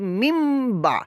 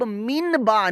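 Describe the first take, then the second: First: The first word ends with a nasalized m sound. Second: The first word ends with an n sound. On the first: The speaker calls it right. "अब हम पढ़ेंगे मिम बा" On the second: The speaker calls it wrong. "अब मिन बा नहीं पढ़ेंगे"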